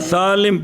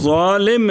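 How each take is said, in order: First: The word begins with an S sound. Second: The word begins with a Z-like sound. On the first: The speaker calls it wrong. "तो इसको सालिम पढ़ना" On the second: The speaker calls it right. "जैसे ज़ालिम है ना"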